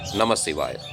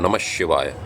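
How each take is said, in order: First: The consonant before 'ivaya' is an s sound. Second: The consonant before 'ivaya' is an sh sound. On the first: "without the short S sound uh, or the sh- sh- short ich sound" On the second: "the aha sound becomes sh if the the following uh, letter is sh"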